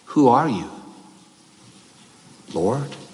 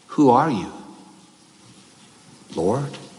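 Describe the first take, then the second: First: Lord follows a break as a separate exclamation. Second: The same.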